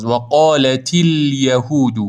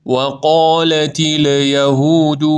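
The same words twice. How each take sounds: First: و قالت الیهود with a still lam, slowly; الیهود with a steady, unmoving lam; right lam. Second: الیهود with the lam shaken; و قالت الیهود with a wobbling lam; wrong lam. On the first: Teacher modelling the right still lam. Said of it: "لام بدون تکون خوردن". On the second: Teacher showing the mistake, lam shaken. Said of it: "این اشتباهه". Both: Shown as a demonstration.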